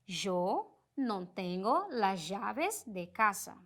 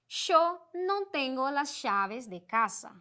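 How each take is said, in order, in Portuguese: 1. O y e o ll são pronunciados como zh. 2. O y e o ll são pronunciados como sh. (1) "esse j" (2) "este som mais de sh"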